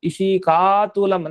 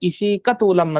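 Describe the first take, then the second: First: The last vowel of ishika is long. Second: The last vowel of ishika is short. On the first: The speaker calls it wrong. "ಇಶೀಕಾ ತೂಲಂ ಅಂತ ಹೇಳ್ಬಾರ್ದು" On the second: The speaker calls it right. "ಇಶೀಕ ತೂಲಂ ಅಂತ ಹೇಳ್ಬೇಕು"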